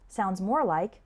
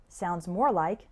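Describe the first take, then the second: No difference in how they are said.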